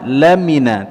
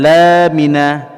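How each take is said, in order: First: The vowel is kept short. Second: The vowel is drawn out long. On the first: The speaker calls it right. "dibaca tanpa huruf mad" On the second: The speaker calls it wrong. "tidak boleh dipanjang, dipanjangkan lamina ya, tidak boleh dibaca demikian"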